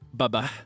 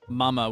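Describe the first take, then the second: First: The M sounds are replaced by B sounds. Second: The word is said with normal M sounds. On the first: "becomes B, as in bother" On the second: "M, as in mother"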